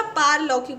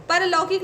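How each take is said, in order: First: पारलौकिक with a long first "paar"; long open first vowel in पारलौकिक; correct vowel. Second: परलौकिक with a short first "par"; wrong vowel. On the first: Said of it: "पारलौकिक होता है". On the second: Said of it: "परलौकिक नहीं होता". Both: Shown as a demonstration.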